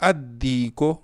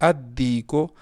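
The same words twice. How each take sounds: Both takes have the same delivery.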